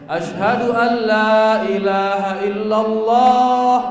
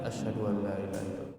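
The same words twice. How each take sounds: First: It is said loudly. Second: It is said softly.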